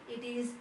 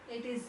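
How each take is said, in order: No difference in how they are said.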